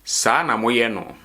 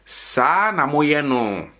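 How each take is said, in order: First: "Saa na moyɛ no" brisk with falling end; statement intonation. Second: "Saa na moyɛ no" slow, higher, swelling up then falling; question intonation. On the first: Teacher shows learners how a statement sounds, statement intonation. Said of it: "If I'm making a statement". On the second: Teacher shows how asking a question sounds, question intonation. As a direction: stretch "Saa na moyɛ no" into a high, drawn-out question. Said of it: "if I'm asking a question". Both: Shown as a demonstration.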